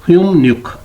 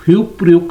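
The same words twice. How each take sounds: First: "ह्युमन्युक" with m-n in place of p-r; बियप की मियम sound. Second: Said in the usual way. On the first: Shown as a demonstration. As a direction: close on m, then n in "ह्युमन्युक". ("ह्युमन्युक" में प-र बदलकर म-न) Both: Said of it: "ये pronounce होगा".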